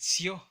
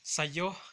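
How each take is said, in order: First: The word is said contracted, one short syllable. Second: The word is said in full, two syllables. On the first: "nosotros de manera natural lo pronunciamos como Sio" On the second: "lo escriben como Sayo"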